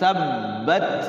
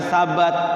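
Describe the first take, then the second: First: The b sound is doubled and held. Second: The b sound is single and short. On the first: The speaker calls it right. "ada ba bertasydid" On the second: The speaker calls it wrong. "jangan sampai sabat"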